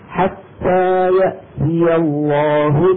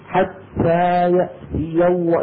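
First: The t sounds are released with light breathiness. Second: The t sounds are released with heavy breathiness. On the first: The speaker calls it right. "لا بنبالغ لا بنبالغ كثير" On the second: The speaker calls it wrong. "في مبالغة في همس التاء تبع حتى وفي همس التاء تبع يأتي"

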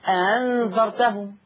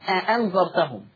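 First: The second glottal stop is softened and eased. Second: Both glottal stops are pronounced fully. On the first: The speaker calls it right. "يا اما سهلها" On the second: The speaker calls it wrong. "ما ينفعش نقول أأنذرتهم، لا"

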